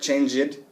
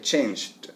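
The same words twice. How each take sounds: First: The ending is not a plain d sound. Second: The ending is a plain d sound. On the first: The speaker calls it wrong. "you won't be saying words like changed" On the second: The speaker calls it right. "You'll say changed"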